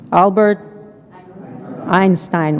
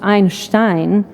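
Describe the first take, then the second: First: The name is said the common English way. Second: The name is said the original German way. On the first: "This is how you pronounce it" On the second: "In German, it is pronounced"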